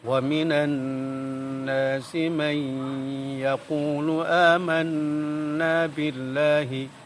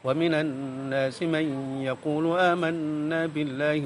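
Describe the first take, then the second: First: It is recited at a slow pace. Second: It is recited at a fast pace. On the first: "Kalau dibaca pelan" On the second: "Kalau dibaca cepat masih tetap ada dengungnya"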